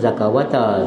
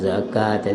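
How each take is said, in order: First: The word is said with a w sound. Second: The word is said without a w sound. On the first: The speaker calls it wrong. "jangan zakawata" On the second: The speaker calls it right. "zakata itu waw itu berupa alif"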